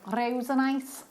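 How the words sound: It is said in a put-on Liverpool accent.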